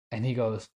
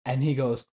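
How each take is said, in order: Both takes have the same delivery.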